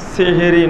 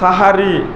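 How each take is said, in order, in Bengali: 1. শব্দটি শুরু হয়েছে 'se' ধ্বনি দিয়ে। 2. শব্দটি শুরু হয়েছে 'sa' ধ্বনি দিয়ে। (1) "সেহেরি নয়" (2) "শব্দটা সাহারি"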